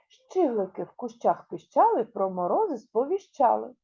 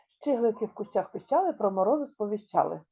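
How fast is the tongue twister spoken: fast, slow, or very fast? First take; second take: fast; very fast. First: It is spoken at a somewhat faster pace. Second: It is spoken at the fastest pace. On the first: "Спробуємо трішечки швидше" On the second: "А ще швидше"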